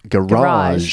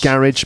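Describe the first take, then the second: First: The stress is on the second syllable. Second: The stress is on the first syllable.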